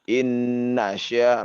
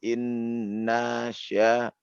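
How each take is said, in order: First: The n sound is short and direct. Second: The n sound is held long. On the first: The speaker calls it right. "Inna sya langsung" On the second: The speaker calls it wrong. "jangan inna sya"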